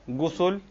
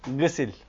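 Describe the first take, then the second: First: The first vowel is a rounded u sound. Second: The first vowel is a front i sound. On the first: It means the full ritual washing. "gayin harfinin üzerinde ya damme oluyor" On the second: It means washing with a cleaning agent like soap. "ya da kesre oluyor"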